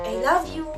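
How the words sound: It is said in a sarcastic tone. "Next is sarcastic"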